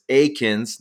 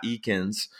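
First: Akins starting with a long AY sound; "Akins" opening like the word ache; correct name pronunciation. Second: Eakins starting with a long EE sound; "Eakins" opening like the word eek; mispronounced name. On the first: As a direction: say "Akins" as AY-kinz. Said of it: "I gotta pronounce that right". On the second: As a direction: say "Eakins" as EE-kinz. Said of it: "not Eakins". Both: Shown as a demonstration.

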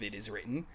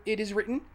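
First: Hushed, lower "It is written." said with weight; solemn. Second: Smug, rising "It is written."; cocky rising "It is written.". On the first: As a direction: drop low and soft on "It is written.". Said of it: "that exact line takes on a third". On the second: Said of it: "You get the cocky connotation of". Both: Shown as a demonstration.

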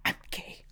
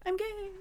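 First: Hushed, whispered coming-out; small, softened retold admission; imitating tearful confession. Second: Very high-pitched, drawn-out declaration; playful high imitation; imitating friend's announcement. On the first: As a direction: whisper it like someone who has been bawling. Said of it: "he's bawling". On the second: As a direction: squeak it out high, as Josh did. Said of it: "when Josh was like".

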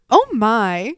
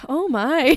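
First: Scandalized, a touch louder; prim shock. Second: Scandalized, breaking into laughter; laughing shock. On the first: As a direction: clutch your pearls. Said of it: "She just goes". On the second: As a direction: gasp it out while laughing. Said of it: "I'm like". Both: Retold or imitated.

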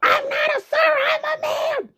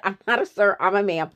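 First: Furious neighbor lady correcting dad with a high shout; irate neighbor lady. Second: Said in the usual way. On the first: Retold or imitated. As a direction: shriek it like an offended woman screaming at a man. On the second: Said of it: "after even she said".

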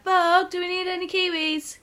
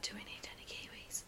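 First: High, loud call across the shop; loud carefree call. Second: Whispered, barely audible question; timid whisper. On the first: Carefree friend calling across the shop, loud and high. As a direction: belt it out without a care. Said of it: "you're like". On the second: Nervous friend whispering in a busy shop, timid whisper. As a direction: ask as if afraid anyone hears. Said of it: "I would walk up to you and be like". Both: Retold or imitated.

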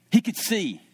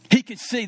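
First: Said in the usual way. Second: He could see punched louder; emphatic. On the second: Acted. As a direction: land it hard, louder the second time.

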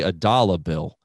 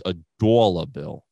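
First: Said in the usual way. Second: Dollar bill with a mild imitated Boston vowel; Boston accent. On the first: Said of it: "I'll say". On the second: Imitating his Boston coworker's dollar bill, mild Boston accent. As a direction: lightly mimic the Boston guy saying dollar bill. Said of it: "he says".

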